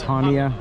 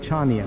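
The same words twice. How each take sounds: First: The opening 'ch' sound is silent. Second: The opening 'ch' sound is pronounced. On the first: The speaker calls it right. "C H, but that's silent, so it's Chania" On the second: The speaker calls it wrong. "I kept pronouncing it Chania because of the way it was spelled"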